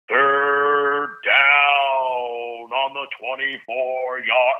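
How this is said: It sounds gloomy, with the voice going down.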